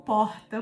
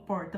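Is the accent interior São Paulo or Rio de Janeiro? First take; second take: Rio de Janeiro; interior São Paulo. First: It is said in a Rio de Janeiro accent. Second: It is said in an interior São Paulo accent.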